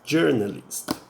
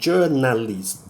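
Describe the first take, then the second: First: The first vowel is a more closed sound. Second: The first vowel is an open, plain A sound. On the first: The speaker calls it right. "pronunciado assim, um pouquinho mais fechado" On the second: The speaker calls it wrong. "não é pronunciado esse A como um A assim normal... Não, não é dessa forma"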